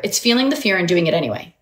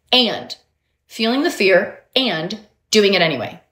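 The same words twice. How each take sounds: First: Said in the usual way. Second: "And" set apart by pauses; stress on AND. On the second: Shown as a demonstration. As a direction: give "and" its own beat, pausing either side. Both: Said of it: "I want you to say and".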